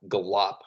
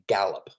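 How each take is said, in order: First: The stress is on the second syllable. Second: The stress is on the first syllable. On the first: The speaker calls it wrong. "You wouldn't say" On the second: The speaker calls it right. "a trochee, words like gallop"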